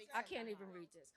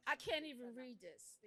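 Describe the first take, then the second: First: Quieter and lower, near breaking; giving up on the script, hurt; too upset to read, again. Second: Quieter, lower, holding back distress; too upset to read. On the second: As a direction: voice sinking as it gets to her. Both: Real, not acted. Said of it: "I'm upset".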